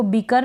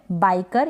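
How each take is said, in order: First: बीकर said with a long ee; बीकर, the wrong ee reading; wrong ee vowel. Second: बाइकर with the ai diphthong; बाइकर said correctly with ai; ai vowel. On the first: Teacher warns students off the ee reading. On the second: Teacher gives students the correct ai reading. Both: Shown as a demonstration. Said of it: "इसको बीकर ना पढ़े".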